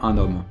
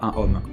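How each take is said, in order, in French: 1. Le n se lie au mot suivant. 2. Le n reste séparé du mot suivant. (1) "pourquoi dit-on un homme" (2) "et pas un homme"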